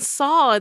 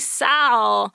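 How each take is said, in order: First: The vowel is a long 'aw' sound. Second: The vowel is a short 'a' sound. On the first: The speaker calls it wrong. "Why am I saying Saul? There's no you in there" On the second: The speaker calls it right. "It should be Sal"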